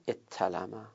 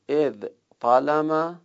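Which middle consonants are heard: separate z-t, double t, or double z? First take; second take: double t; separate z-t. First: A doubled t sound replaces the z-t cluster. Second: A z sound is followed by a t sound. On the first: "در مورد اخیر اتلمه هم جایزه" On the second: "ازتلمه سه جور می تونیم بگیم"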